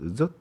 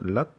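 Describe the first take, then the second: First: It is said with a northern Vietnamese accent. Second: It is said with a southern Vietnamese accent. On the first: "북쪽은 젓, 젓 이렇게 발음을 해요" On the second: "남쪽은 랏"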